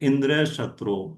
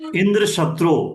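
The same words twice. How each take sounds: First: The stress falls on the first word. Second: The stress falls on the second word. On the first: A son who will be killed by Indra. The speaker calls it wrong. "थोड़ी सी कमी" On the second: A son who will kill Indra. The speaker calls it right. "शत्रु पे जोर देके"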